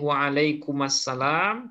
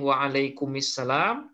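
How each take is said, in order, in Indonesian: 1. Vokal penyambung sebelum salam adalah a. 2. Vokal penyambung sebelum salam adalah i.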